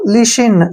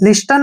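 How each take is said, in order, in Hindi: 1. t की आवाज़ चुप रहती है। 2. t की आवाज़ बोली जाती है। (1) "क्या पढ़ेंगे इसको? लिशिन" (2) "लिस्टन नहीं पढ़ना है, गलत हो जाएगा"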